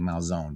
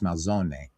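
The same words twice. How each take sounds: First: The final vowel is dropped and silent. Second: The final vowel is clearly pronounced. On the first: It is the Americanized form of the name. The speaker calls it wrong. "in Americanized Italian, you would say Malzone" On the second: It is the original Italian form of the name. The speaker calls it right. "but it's Malzone. ... the E is pronounced like an A"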